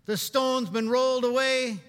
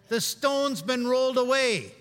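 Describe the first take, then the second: First: "The stone's been rolled away" proclaimed loud, stress on "rolled"; louder preaching, weight on "rolled"; emphatic line. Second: "The stone's been rolled away" said slowly, each word weighted; slow it right down, land on "away"; slowed proclamation, every word spaced; slow emphatic repeat. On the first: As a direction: call out "rolled" with force. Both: Shown as a demonstration.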